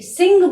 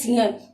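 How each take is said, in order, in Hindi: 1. शब्द का अंत साधारण 'ng' ध्वनि से होता है। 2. शब्द का अंत 'nh' ध्वनि से होता है, जैसा लिखा है। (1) "सिंह बोला जाता है" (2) "शुद्ध उच्चारण में इसको बोलते हैं सिंह"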